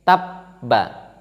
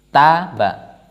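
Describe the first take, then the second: First: The b sound is pressed and held longer. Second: The b sound is short and single.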